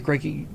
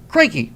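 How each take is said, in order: First: Put-on crikey softer in a mild Australian accent; a light Australian crikey. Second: Crikey in a mock Australian accent, higher and louder; a cheerful Australian crikey. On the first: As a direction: murmur crikey like an Aussie. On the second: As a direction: toss off crikey like an Aussie. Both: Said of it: "when an Australian says crikey".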